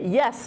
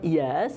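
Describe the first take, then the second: First: The pitch falls sharply across the word. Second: The pitch rises upward across the word. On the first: "is tone four" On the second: "is tone two"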